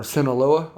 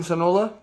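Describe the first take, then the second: First: "Sinaloa" in four syllables, "sin-uh-LOH-uh"; corrected Sinaloa. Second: "Sinaloa" cut to three syllables, "sin-OH-la", pitched up; loud, questioning stab at "Sinaloa" as "sin-OH-la"; mispronounced Sinaloa. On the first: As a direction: fix "Sinaloa" with the full "LOH-uh" ending. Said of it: "I know it's Sinaloa". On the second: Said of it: "I'm sorry. I know it's Sinaloa". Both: Real, not acted.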